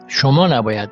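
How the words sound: The stress falls on the first word. "So I put the stress on this one"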